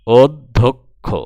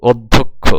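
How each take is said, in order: First: অধ্যক্ষ loud and drawn out, od... dhok... kho; loud, very slow model of অধ্যক্ষ; slow pronunciation demo. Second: অধ্যক্ষ loudly, as od-dhok-kho at a natural length; loud, compact model of অধ্যক্ষ; pronunciation demo. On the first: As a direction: pull অধ্যক্ষ apart syllable by syllable. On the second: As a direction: say অধ্যক্ষ firmly in one go. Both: Shown as a demonstration. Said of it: "দেখো উচ্চারণ".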